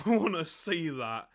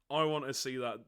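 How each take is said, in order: First: Louder, laughing through the line; laughing repeat. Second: Said in the usual way. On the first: Real, not acted. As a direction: say it again, cracking up.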